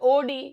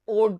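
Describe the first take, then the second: First: It is said as two syllables ending in ee. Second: It is said as one syllable. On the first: The speaker calls it wrong. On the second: The speaker calls it right.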